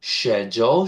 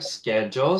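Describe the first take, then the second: First: It is said in a British accent. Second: It is said in an American accent.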